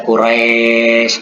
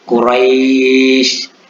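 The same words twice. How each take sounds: First: The last syllable is harsh, sounding like e. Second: The last syllable is soft, sounding like i. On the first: The speaker calls it wrong. "jangan dibaca Quraisy, itu kasar terdengar" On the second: The speaker calls it right. "terdengar seperti bunyi i, bukan terdengar seperti bunyi e"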